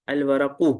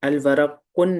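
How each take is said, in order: First: The word ends on a short vowel, no n. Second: The word ends with an added n sound. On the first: The speaker calls it right. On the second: The speaker calls it wrong.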